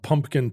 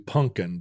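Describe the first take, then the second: First: The word is said with a p sound. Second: The word is said without a p sound. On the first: "veer from pumpkin" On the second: "to punkin"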